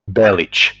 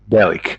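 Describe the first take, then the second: First: The name ends in a soft ch sound. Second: The name ends in a hard k sound. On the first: The speaker calls it right. "his last name should be Belic" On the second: The speaker calls it wrong. "instead of Belik"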